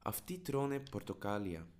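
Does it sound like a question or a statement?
statement. It has the tune of a plain statement. It states that they are eating oranges. "They are eating oranges"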